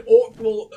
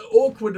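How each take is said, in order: First: "awkward" slurred into "awk-wal", loud; mispronounced awkward. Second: Said in the usual way. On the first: Real, not acted. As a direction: slip on "awkward", ending it in -wal. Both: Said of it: "got even more awkward because I just said".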